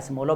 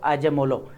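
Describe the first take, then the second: First: The name is said with an 's' sound. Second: The name is said with a 'j' sound. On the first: "American में अगर देखा जाए तो एस्मोलो भी बोला जाता है" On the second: "अब उनको यही प्रोनाउंस किया जाता है"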